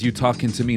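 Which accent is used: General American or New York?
General American. It is said in a neutral Midwestern American accent. "He says"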